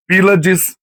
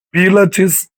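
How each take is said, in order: First: Pílades said with a d, corrected; the name Pílades clearly with a d sound. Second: Pílates said with a t, a slip before the correction; the name Pílates said with a t sound; mispronounced name. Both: Shown as a demonstration.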